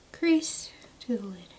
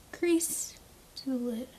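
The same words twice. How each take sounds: First: Hushed reminder of the step; whispered. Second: Sing-song. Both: Shown as a demonstration. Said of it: "repeated phrase".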